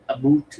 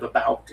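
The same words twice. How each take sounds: First: "about" said as "aboot"; Canadian-style "about", rhyming with boot. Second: Said in the usual way. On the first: Shown as a demonstration. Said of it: "they say". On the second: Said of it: "instead of about".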